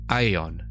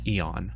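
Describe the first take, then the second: First: The first vowel glides from ah to e. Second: The first vowel is a single steady e sound. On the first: The speaker calls it right. "in Latin it was a diphthong? Ah, and then E" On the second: The speaker calls it wrong. "most people pronounce it like E"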